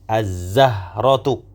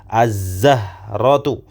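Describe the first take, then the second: Both takes have the same delivery.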